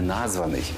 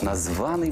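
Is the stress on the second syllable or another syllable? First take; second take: another syllable; second syllable. First: The stress is not on the second syllable. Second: The stress is on the second syllable. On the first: The speaker calls it wrong. "не «названий»" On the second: The speaker calls it right. "Наголос падає на другий склад"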